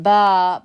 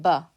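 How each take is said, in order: First: Ba drawn out long and louder; ba with an overlong, emphatic aa; long vowel. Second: Ba cut short, quick vowel; ba as one quick, short syllable. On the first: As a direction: stretch the vowel in ba, baaa. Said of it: "Not ba". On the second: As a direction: keep the a in ba brief. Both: Shown as a demonstration.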